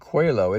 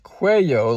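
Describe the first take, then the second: First: The double L sounds like an English L. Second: The double L sounds like an English Y. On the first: The speaker calls it wrong. "I pronounced it Cuello" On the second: The speaker calls it right. "It's Cuello, like with a Y"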